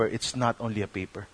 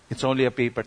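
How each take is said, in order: First: Quiet, with the word not leaned on; stress on not. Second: Said in the usual way. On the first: Shown as a demonstration. Correcting the excuse, stress on not. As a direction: press down on not and keep it soft.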